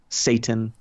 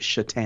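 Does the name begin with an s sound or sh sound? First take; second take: s; sh. First: The name begins with an s sound. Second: The name begins with a sh sound. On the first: This is how the name reads from its spelling. "It was spelled Satan" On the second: This is how the player's name is really pronounced. "you pronounced it Shatan"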